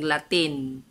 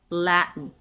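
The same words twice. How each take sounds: First: The stress is on the second syllable. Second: The stress is on the first syllable. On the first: This is how a Bisaya speaker reads it. The speaker calls it wrong. "kita mga Bisaya na naon nato pagbasa" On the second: This is how it is said in English. The speaker calls it right. "Nasa first syllable"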